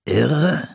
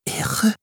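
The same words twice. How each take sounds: First: Higher, rising questioning repeat; puzzled echo. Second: Hushed, puzzled echo; uncomprehending whisper. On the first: Captain echoing an unknown word, puzzled. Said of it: "wiederholte Kapitän Standish". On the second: Settlers echoing an unknown word, whispering puzzled. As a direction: whisper the word as if it made no sense. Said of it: "flüsterten die anderen, als ob sie nicht verstehen". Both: A narrator's reading.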